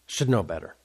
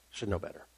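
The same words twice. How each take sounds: First: Said in the usual way. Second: Muttered to self. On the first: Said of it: "king kicking himself". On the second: Acted. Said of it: "repeated to himself".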